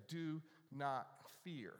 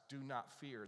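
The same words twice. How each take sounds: First: Slow "Do not fear." with weight on "Do"; slow emphasis. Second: Said in the usual way. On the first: Shown as a demonstration. Pastor repeating God's command slowly for emphasis. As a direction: let each word land slowly. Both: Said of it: "or the statement".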